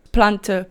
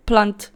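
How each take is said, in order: First: "Plante" in two syllables, final uh; Afrikaans plural. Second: "plant" in one syllable, ending on the t; Afrikaans singular. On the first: Vlogger teaching the plural to viewers, Afrikaans pronunciation. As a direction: say "Plante" as PLUN-tuh. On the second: Vlogger teaching the singular to viewers, Afrikaans pronunciation. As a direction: say "plant" as plunt, no final uh. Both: Shown as a demonstration.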